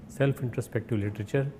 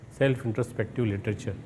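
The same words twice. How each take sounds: The two takes are said the same way.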